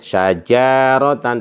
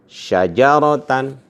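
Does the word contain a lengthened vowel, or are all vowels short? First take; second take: lengthened; all short. First: One vowel in the word is drawn out long. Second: Every vowel in the word is kept short. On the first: The speaker calls it wrong. "tidak boleh ada suara panjang di sini. Tidak boleh" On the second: The speaker calls it right. "yang boleh adalah"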